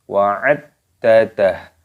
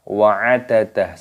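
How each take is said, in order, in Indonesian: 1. d di tengah ditekan dan dibaca ganda. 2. d di tengah dibaca pendek dan tunggal. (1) "harus ditekan" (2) "Jangan dibaca wa'adadah, salah"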